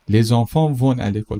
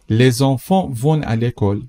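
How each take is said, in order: First: Said in the usual way. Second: Slow, careful example sentence; slow model read. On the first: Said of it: "repeat at normal speed". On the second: Shown as a demonstration. Teacher models the sentence slowly for the class. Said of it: "teacher models slowly".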